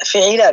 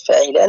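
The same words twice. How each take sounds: First: فعيلا with a short "i" after the first letter, fi'īlā; kasra on fāʾ. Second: فعيلا with an open "a" after the first letter, fa'īlā; mistaken vowel. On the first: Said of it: "بكسر الفاء". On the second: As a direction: repeat the slip فعيلا, fatha on the fāʾ. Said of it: "عفوًا، أنا إيش قلت؟". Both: Shown as a demonstration.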